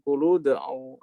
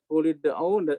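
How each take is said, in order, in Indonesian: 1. Kata-kata itu dihubungkan dengan vokal u. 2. Kata-kata itu dihubungkan dengan vokal i.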